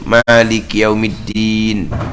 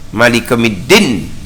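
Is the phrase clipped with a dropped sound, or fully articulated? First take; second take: full; clipped. First: It is said fully, keeping the ya sound. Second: It is said fast, dropping the ya sound. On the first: The speaker calls it right. "huruf wajib kena pelihara" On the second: The speaker calls it wrong. "dia baca dengan cepat"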